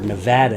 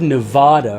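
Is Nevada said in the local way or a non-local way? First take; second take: local; non-local. First: Nevada is said in the local way. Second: Nevada is said in a non-local way.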